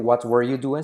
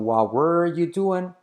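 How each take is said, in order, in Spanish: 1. La t al final de 'what' se pronuncia. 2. La t al final de 'what' se omite. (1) "no se dice what were you doing" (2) "La T de what decae"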